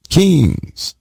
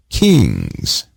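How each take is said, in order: Both takes have the same delivery.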